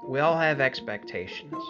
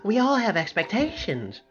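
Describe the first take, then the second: First: It is said in a gloomy, Eeyore-like way. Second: It is said in a lively, Rabbit-like way.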